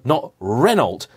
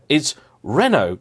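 First: Slow Renault with a hard final t, REN-olt; mock wrong Renault, t pronounced; anglicised Renault. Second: Renault said the French way, ren-OH, no final t. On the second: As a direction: correct French Renault, smooth ending on oh. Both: Shown as a demonstration. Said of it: "they get comically wrong".

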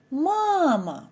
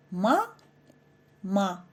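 First: Мама in one voice stream, first syllable high and long; Мама unbroken, strongly stressed on the first syllable; word in one flow. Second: "ма, ма" as separate short syllables; ма... ма, evenly, with a clear gap between. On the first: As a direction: sing out the first "ма" of Мама, gliding into the second. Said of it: "слова треба вимовляти злито". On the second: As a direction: split it into ма, pause, ма, neither stressed. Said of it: "вимовлене по складах, втрачає наголос". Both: Shown as a demonstration.

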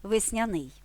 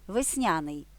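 First: Весняний stressed at the end: весняНИЙ; stress on last syllable. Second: Весняний stressed in the middle: весНЯний; stress on second syllable. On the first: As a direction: land on НИЙ in весняний. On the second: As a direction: lean on НЯ in весняний. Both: Shown as a demonstration. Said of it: "нормативними є два наголоси".

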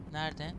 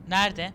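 First: Said in the usual way. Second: Calling out louder. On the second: Real, not acted. Player calling out for the lost friend, louder. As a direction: call Nerede out across the room. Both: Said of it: "Nerede? repeated louder".

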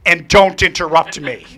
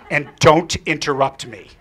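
First: Loud, slow, half-laughing mock order; laughing requote. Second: Slow, loud command; stern order. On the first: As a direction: repeat the kid's rule, amused. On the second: Retold or imitated. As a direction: lay down the rule firmly. Girl gives a stern order.

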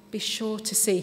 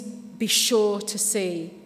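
First: Said in the usual way. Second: Drawn out slowly, each word weighed; slow emphasis. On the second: Shown as a demonstration. Preacher explaining a Greek word, slow and deliberate. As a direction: linger on every word so they sink in. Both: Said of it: "But it means".

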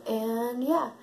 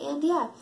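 First: Said in the usual way. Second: "And yeah" said higher and louder, falling; mock-quote "And yeah" with a falling tune; quoting own catchphrase. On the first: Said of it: "Take a shot every time I say". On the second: Shown as a demonstration. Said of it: "Take a shot every time I say, "And yeah".

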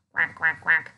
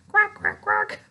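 First: Lower, moderate duck quacks. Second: Higher, louder duck quacks; loud, high quack after calling for louder. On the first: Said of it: "Can you make a, a ducky sound?". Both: Shown as a demonstration.

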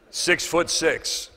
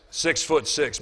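First: Six-foot-six stretched out slowly; drawn-out size. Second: Said in the usual way. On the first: Retold or imitated. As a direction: let "Six-foot-six" drag for awe. Describing a huge man.

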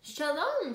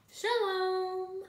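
First: Lightly voiced hello, higher then falling; greeting. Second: High, held, drawn-out hello; echoed greeting. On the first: A narrator's reading. Missus Rosen and children greet neighbours, lightly lifted hello. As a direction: lift the greeting, then let it fall. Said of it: "says Missus Rosen and her children". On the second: Acted. Greeting returned after the dog barks, high and held. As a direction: hold the last syllable up high.

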